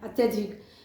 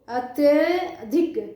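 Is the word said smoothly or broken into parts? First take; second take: smooth; broken. First: The word is said smoothly in one relaxed go. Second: The word is said carefully, broken into parts. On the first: It is spoken as one whole word. "अत्यधिक एकदम आराम से कर दे रहे हैं" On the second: It is being split into its joined parts. "इसके उच्चारण पर ध्यान दोगे"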